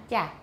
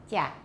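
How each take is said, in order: Both takes have the same delivery.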